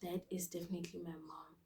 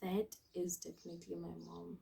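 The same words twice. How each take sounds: First: Unvoiced whispered dread. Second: Much softer, lower murmur; quiet dread. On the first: Realising his mom is outside, whispered dread. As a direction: whisper it like you're doomed. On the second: Retold or imitated. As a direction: say it under your breath in dread.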